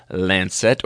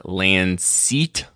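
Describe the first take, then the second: First: "Lancet" said LAN-sit; first pronunciation. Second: "Lancet" said lan-SEET; alternative pronunciation. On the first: Doctor naming a journal, "Lancet" said LAN-sit. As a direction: say "Lancet" with a short, light second syllable. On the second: Doctor offering another way, "Lancet" said lan-SEET. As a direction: draw out "Lancet" with a long ee ending. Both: Shown as a demonstration. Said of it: "depending how you want to say it".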